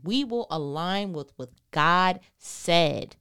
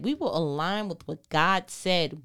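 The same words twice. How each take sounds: First: Slow it right down, landing hard on "God" and "said"; "God ... said" spaced out and punched; emphatic declaration. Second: Said in the usual way. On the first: Real, not acted. Preacher repeats the declaration to the congregation, emphatic and slow.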